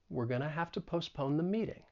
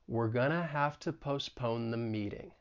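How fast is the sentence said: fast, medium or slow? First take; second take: medium; slow. First: The sentence is said at a moderate speed. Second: The sentence is said slowly. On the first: "and then get faster" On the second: "let's say it slowly"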